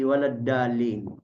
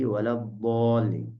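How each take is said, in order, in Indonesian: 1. Konsonannya d biasa, ujung lidah menyentuh. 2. Konsonannya tebal, bunyi dhad yang emfatik. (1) "yang nempel atau yang ketemu itu ujung lidah sama langit-langit jadi walad dalin" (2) "Kalau yang ketemu tipi lidah sama geraham ... itu bisa jadi"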